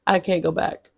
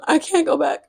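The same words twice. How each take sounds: First: Said in the usual way. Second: A light, higher imitation of the TikTok sound saying I can't go back; imitating the TikTok sound. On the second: Quoting a TikTok sound to her viewers: light imitation. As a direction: quote the viral sound, can't lifted and falling off. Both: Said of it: "Just like that TikTok sound".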